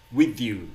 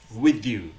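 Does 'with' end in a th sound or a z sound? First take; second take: th sound; th sound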